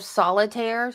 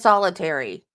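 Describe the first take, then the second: First: The word ends with an 'air' sound. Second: The word ends with an 'ee' sound. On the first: The speaker calls it right. "instead of solitaire" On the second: The speaker calls it wrong. "She says solitary"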